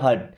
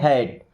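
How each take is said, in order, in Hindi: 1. स्वर एक छोटी 'uh' ध्वनि है। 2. स्वर एक खुली 'ae' ध्वनि है। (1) "हट नहीं पढ़ना है" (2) "यहां पे आएगा ए की मात्रा, इसे पढ़ेंगे हैट"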